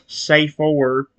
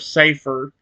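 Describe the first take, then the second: First: The word is drawn out slowly. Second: The word is said at normal speed. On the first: "my brain slowed down so it came out as safer" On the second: "instead of safer"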